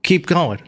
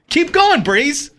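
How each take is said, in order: First: Said in the usual way. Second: High, pushy nudge; raised-pitch prompt; insistent prompting. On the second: Real, not acted. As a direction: urge the co-reader on impatiently. Repeats the prompt to co-reader.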